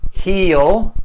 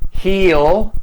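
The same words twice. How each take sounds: First: Will is shortened and joined to the pronoun. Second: The same.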